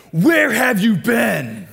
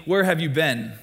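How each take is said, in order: First: Slow, loud, high shout, leaning on where; angry dad shout. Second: Said in the usual way. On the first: Retold or imitated. Pastor imitating his dad yelling at him for coming home late. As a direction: bellow it like a furious dad at the door. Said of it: "Usually, though, it's like". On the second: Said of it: "a question my dad always asked me".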